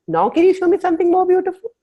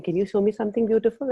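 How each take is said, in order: First: Much higher, louder, thrilled plea for "more beautiful"; eager greedy ask. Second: Said in the usual way. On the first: Retold or imitated. Asking the universe to show something more beautiful, excited plea. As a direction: beg the universe like a delighted child.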